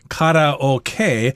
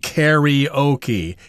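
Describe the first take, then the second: First: The word is said with a Japanese pronunciation. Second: The word is said with an English 'e' sound. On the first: "from the Japanese term karaoke" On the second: "in English we often pronounce this karaoke, even though the spelling has an A in there, but it's pronounced like an E"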